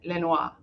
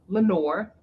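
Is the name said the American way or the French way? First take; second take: French; American. First: The name is pronounced in an attempted French way. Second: The name is pronounced the American English way. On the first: "I went, you know, to France and I said Lenoir" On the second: "the way that I pronounce it here in the U S"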